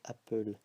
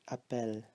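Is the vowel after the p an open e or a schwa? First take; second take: schwa; open e. First: The vowel after the p is a schwa. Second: The vowel after the p is an open e. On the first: The speaker calls it wrong. "and not appel" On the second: The speaker calls it right. "there is two L's, so we say appel"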